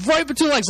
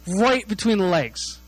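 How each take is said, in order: First: High, quicker punch on RIGHT; excited repeat. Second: Drawn-out, deliberate RIGHT between the legs; slow emphatic reveal. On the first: Relishing where the kick landed, high and excited. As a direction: repeat "Right between the legs" in a raised, excited pitch. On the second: Telling where the brother's kick landed, slow and emphatic. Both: Real, not acted.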